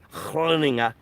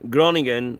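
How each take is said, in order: First: The name is pronounced the Dutch way. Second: The name is pronounced the English way. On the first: The speaker calls it right. "try to pronounce that correctly" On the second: The speaker calls it wrong. "or sorry, let me pronounce that, or try to pronounce that correctly"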